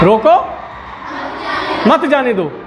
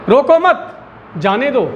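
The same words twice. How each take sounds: First: There is a pause right after 'roko'. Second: There is a pause right after 'mat'. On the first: The person should be stopped. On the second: The person should be let go.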